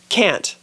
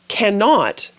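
First: The word 'not' is contracted. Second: The word 'not' is said in full. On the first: This is the spoken form. "but we say" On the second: This is the written form. "We write"

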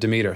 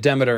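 First: The name is said the goddess way. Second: The name is said the amp-brand way. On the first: This is the usual name of the goddess. The speaker calls it right. "instead of Demeter" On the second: This is how the amp company names its product. The speaker calls it wrong. "they say it Demeter"

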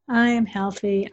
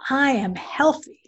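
First: The voice sounds flat and unconvinced. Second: The voice sounds emotional and convinced. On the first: The speaker does not really believe it. The speaker calls it wrong. "As opposed to" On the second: The speaker truly believes it. The speaker calls it right. "absolutely believe with all your heart and soul"

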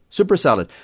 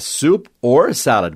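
First: It is said fast, with or reduced. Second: It is said slowly, every word clear.

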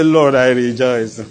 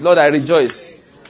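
First: It is said in a sad, flat voice. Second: It is said in a happy, smiling voice.

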